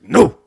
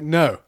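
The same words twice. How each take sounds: First: It is a short barked grunt. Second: It is said in a plain ordinary way.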